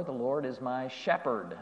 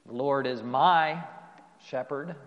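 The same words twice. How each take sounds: First: SHEPHERD given the weight at the end; softer line landing on "shepherd"; stress on SHEPHERD. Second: MY stressed, then a pause before "shepherd". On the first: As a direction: save the emphasis for SHEPHERD, no pause before it. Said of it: "put the emphasis on any of those words". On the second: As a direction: hit MY and hold off the last word. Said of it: "emphasize any of those words". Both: Shown as a demonstration.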